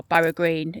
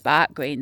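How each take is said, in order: First: Said in the usual way. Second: "Bark Green", Barrow shortened to Bark; local Barnsley pronunciation. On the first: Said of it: "It's pronounced Bark Green". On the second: Shown as a demonstration. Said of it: "It's pronounced Bark Green, though, in Barnsley".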